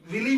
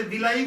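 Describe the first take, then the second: First: विली ending in a plain "lee"; villi pronunciation. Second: विलाई with a long "laa-ee" ending; vilai pronunciation. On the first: Teacher showing students the other name some people use, villi pronunciation. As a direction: say विली as VIL-ee, two syllables. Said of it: "विली बोलते हैं कुछ लोग". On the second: Teacher showing students how some people say the term, vilai pronunciation. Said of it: "ऐसे विलाई बोलते हैं कुछ लोग". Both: Shown as a demonstration.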